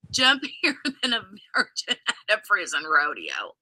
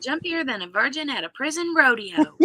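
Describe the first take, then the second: First: Said in the usual way. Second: A hint of a Southern accent; Southern belle accent. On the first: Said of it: "he says". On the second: Shown as a demonstration. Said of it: "if we say it in Blanche's accent".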